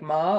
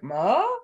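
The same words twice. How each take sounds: First: It is said with the tone meaning horse. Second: It is said with the tone meaning mother. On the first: The word means horse. "like it could mean like horse" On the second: The word means mother. "or like mother"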